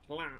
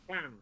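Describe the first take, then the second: First: The word starts with a plain, voiced L sound. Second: The word starts with a breathy, hissed L sound. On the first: "from an English point of view, you're going to pronounce that lan" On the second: "It's pronounced as H L"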